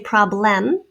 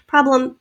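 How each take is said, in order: First: The second syllable has a clear short E vowel. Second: The second syllable has a reduced schwa vowel. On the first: "I don't say problem. Maybe you do" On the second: "Problem has a schwa"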